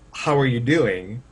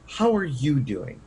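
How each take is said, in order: First: It is said in a flat, plain tone. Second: It is said with strong, expressive inflection. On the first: "someone could just take that as, oh, okay, they just want to know how I am" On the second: "if I said it with inflection"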